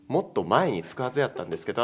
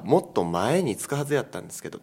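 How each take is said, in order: First: Mae carries the standard-style pitch accent. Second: Mae carries the Kansai dialect pitch accent. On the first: It means earlier in time. The speaker calls it right. "時間軸としての前になる" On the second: It means physically in front of something. The speaker calls it wrong. "関西弁の方の訛り方すると目の前って意味になっちゃう"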